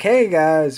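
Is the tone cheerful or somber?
cheerful. It is said in a cheerful, upbeat tone.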